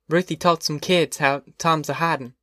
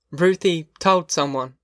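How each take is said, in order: First: Said in the usual way. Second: Told drawn out slow and weighty; slow stress on told. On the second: Acted. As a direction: lean hard on told, slowly. Ma repeats the news slowly.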